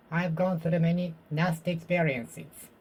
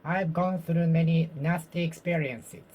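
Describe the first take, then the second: No difference in how they are said.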